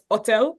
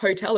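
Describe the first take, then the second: First: The word begins with no h sound. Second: The word begins with a sounded h. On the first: The speaker calls it right. "They don't pronounce the letter H" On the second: The speaker calls it wrong. "is not hotel"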